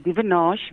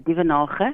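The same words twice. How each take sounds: First: The name has an English pronunciation. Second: The name has an Afrikaans pronunciation. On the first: "in the U S, in English, we say" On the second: "in Afrikaans, my home language, we say"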